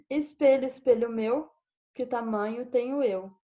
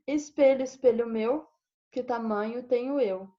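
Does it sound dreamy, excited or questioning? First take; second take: dreamy; dreamy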